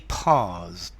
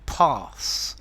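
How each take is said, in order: First: The word ends with a z sound. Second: The word ends with an s sound. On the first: "as a Brit, I say pause" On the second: "some Americans will say to pass with an S sound"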